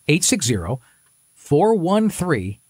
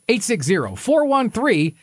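First: It is read more slowly. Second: It is read at normal speed.

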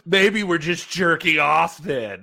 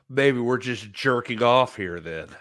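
First: The line is said in a wild, unhinged voice. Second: The line is said in a fairly plain, calm voice. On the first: The speaker calls it right. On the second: The speaker calls it wrong.

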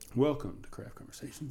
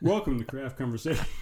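First: It is spoken in a quiet, low voice. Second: It is spoken in a louder, fuller voice. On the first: It is only a practice run. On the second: It is the actual intro.

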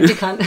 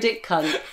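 First: The phrase is said quickly. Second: The phrase is said at a normal pace.

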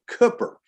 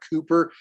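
First: It is pronounced the way locals say it. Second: It is pronounced the way it is spelled. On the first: The speaker calls it right. "That's how the locals pronounce it" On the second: The speaker calls it wrong. "It looks like Cooper"

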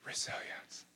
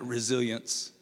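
First: It is whispered. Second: It is spoken in a normal voice.

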